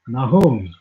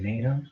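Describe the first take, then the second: First: The name is said with a Hebrew pronunciation. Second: The name is said with an American pronunciation. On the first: "I'm gonna say it the Hebrew way" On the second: "I used to say Nahum, but that's the American way"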